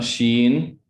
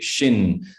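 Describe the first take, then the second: First: The vowel sounds like the ee in sheen. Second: The vowel sounds like the i in shin. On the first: The speaker calls it wrong. "Not Sheen. That's what's gonna get you" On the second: The speaker calls it right. "Like I hit my shin and it hurts"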